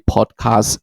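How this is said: It is said in a British accent.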